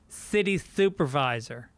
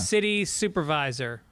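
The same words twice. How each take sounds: First: The s sounds are said with a lisp. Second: The s sounds are said clearly.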